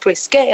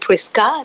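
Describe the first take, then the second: First: The name ends with a 'kay' sound. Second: The name ends with a short 'ka' sound. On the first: This is how English speakers read the name. "in English, K we say K" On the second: This is the original French form of the name. "in French, K says ka"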